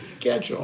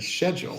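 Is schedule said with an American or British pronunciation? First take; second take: American; British. First: The word is said the American way. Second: The word is said the British way. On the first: The speaker calls it right. "We're American, we say schedule" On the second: The speaker calls it wrong. "where you go school and schedule"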